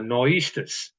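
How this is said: It is said with the r sounds dropped.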